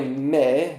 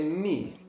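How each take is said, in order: First: The vowel is pronounced like e. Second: The vowel is pronounced like i. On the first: The speaker calls it wrong. "não é me" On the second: The speaker calls it right. "normalmente é mi"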